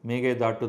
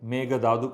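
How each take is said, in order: First: The last syllable has a doubled retroflex 't'. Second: The last syllable has a soft dental 'th'. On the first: The speaker calls it right. "மேகதாட்டு தான் அது" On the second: The speaker calls it wrong. "மேகதாது கிடையாது"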